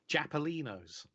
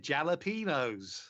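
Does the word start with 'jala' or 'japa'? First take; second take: japa; jala. First: The word begins with 'japa' and the syllables are swapped. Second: The word begins with 'jala' in the usual order. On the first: The speaker calls it wrong. "just embarrassed at her pronunciation" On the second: The speaker calls it right. "They're not Japalinos. They're jalapenos"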